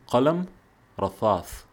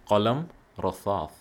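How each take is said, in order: First: The second word is said with a lisped th sound. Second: The second word is said with a lisped th sound.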